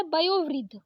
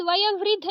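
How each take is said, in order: First: वयोवृद्ध with long o, vayo-vriddh; correct ओ. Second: वयोवृद्ध said as vaya-vriddh; short a before vriddh in वयोवृद्ध; wrong अ for ओ. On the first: Teacher correcting it, वयोवृद्ध with o. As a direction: round the o in वयोवृद्ध. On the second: Teacher showing the mistake, वयोवृद्ध without the o. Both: Shown as a demonstration. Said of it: "वयोवृद्ध नहीं होता है".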